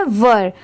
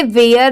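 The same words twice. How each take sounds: First: वर as one syllable with "uh"; short "vur". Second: वेयर with an "ay" glide before the r; two-part "ve-yar". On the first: Teacher giving learners the correct reading, वर as short "vur". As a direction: say वर with no "ay" glide. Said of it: "यहाँ पर इसकी pronunciation क्या है?". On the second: Teacher showing a common misreading, वेयर as "ve-yar". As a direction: say वेयर like "where". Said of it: "ये wrong होता है". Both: Shown as a demonstration.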